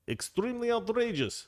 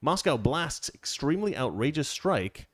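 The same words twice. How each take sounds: First: Mock outraged official. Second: Said in the usual way. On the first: Mocking Russia's statement for his co-host, hammed-up high outrage. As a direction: ham up the Kremlin's indignation, pitched high. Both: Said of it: "That's how they say it".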